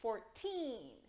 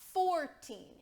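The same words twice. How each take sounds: First: The stress is on the second syllable. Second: The stress is on the first syllable. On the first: The speaker calls it right. "it's fourteen" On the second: The speaker calls it wrong. "it's not fourteen"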